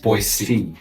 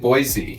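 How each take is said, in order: First: The middle consonant is a hissing S sound. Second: The middle consonant is a buzzing Z sound. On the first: The speaker sounds like a local. The speaker calls it right. "you have to really pronounce the S" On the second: The speaker is clearly not from here. The speaker calls it wrong. "if you make the S a Z"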